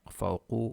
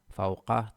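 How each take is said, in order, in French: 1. Le mot se termine par la voyelle 'u'. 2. Le mot se termine par la voyelle 'a'. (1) "Pas amamu ou bien fawqu ou bien tahtu, non" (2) "ils sont nasab"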